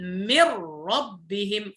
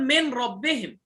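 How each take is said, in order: First: من ربهم as "mirrabbihim", n merged into a doubled r; slow, blend the nun into the r; correct idgham. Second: من ربهم with the n said clearly before the r; wrong izhar. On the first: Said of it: "إنما نقول". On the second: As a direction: pronounce من ربهم as "min rabbihim", n distinct. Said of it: "هذا إظهار". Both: Shown as a demonstration.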